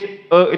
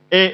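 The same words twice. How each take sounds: First: The vowel sounds thick and full. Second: The vowel sounds thin and light. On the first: "e itu tebal" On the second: "E itu tipis"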